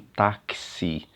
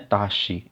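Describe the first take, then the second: First: The x is said as two sounds, k and s. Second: The x is said as one single sound. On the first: The speaker calls it right. "tem o som do K S" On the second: The speaker calls it wrong. "não é taxi"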